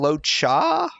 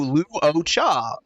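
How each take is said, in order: First: The name starts with a short 'lo' sound. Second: The name starts with a long 'loo' sound. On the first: This is how it is said in the game. "How did she say it again? ... forget the fact that there's even a Lu" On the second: This is how the spelling suggests it is said. "Like it's a long U"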